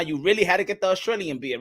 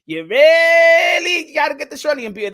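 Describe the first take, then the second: First: Said in the usual way. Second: Pitched up and loud; hammed-up yell; shouted mock accusation.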